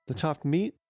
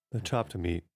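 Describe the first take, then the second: First: Higher, rising question of disbelief; surprised echo. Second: Said in the usual way. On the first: Acted. Boy repeats his father's accusation, startled. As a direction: play dumb with a startled echo.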